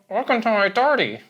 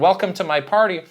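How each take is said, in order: First: The last word starts with a D sound. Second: The last word starts with a normal P sound. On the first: "P's and B's, he would pronounce as D's" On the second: "instead of saying"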